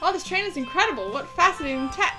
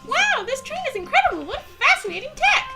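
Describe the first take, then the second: First: It is said in the speaker's ordinary voice. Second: It is said in a put-on character voice.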